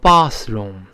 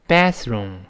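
First: The first vowel is a broad open 'ah'. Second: The first vowel is a flat front 'a'. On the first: "英国人呢把这个卫生间读成bathroom。他发啊" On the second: "所以美音中这么读bathroom"

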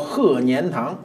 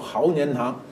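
First: 鹤 is said as he, standard Mandarin. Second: 鹤 is said as hao, old Beijing style.

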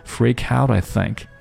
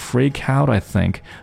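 First: The T is briefly stopped before I. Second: The same.

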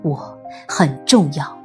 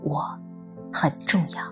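First: It is said loudly, like a proclamation. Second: It is said quietly, almost to oneself.

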